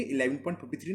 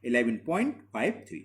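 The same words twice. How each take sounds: First: Fifty three read as one number, eleven point fifty three said quickly; wrong way, fifty three as a whole number. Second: eleven point five three with each digit after the point said separately; right way, five three digit by digit; correct reading. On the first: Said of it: "तो हम क्या इसको read करेंगे". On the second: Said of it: "हर digits को single पढ़ा जाता है". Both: Shown as a demonstration.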